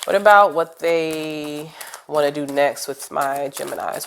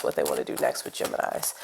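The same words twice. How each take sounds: First: Said in the usual way. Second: Breathy unvoiced whisper, a bit quick; whispered question. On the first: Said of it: "reading the card question aloud". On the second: Shown as a demonstration. Reader whispers her question to the cards, hushed. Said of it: "whispered repeat of question".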